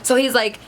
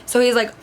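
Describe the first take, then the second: No difference in how they are said.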